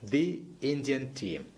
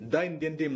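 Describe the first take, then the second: First: The word 'the' is said as 'thee'. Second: The word 'the' is said as 'thuh'. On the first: The speaker calls it right. "Vowels ശബ്ദിക്കുമ്പോ ദി എന്ന് പറയാ" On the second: The speaker calls it wrong. "ദ Indian team എന്ന് പറയില്ല"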